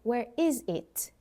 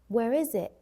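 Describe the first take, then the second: First: The final T in 'it' is pronounced. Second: The final T in 'it' is dropped. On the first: "Instead of saying" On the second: "drop your T sometimes"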